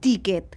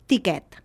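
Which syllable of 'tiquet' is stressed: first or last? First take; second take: first; last. First: The stress is on the first syllable. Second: The stress is on the last syllable. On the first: The speaker calls it wrong. "no ens serveix demanar un tiquet" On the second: The speaker calls it right. "Hem de demanar un tiquet"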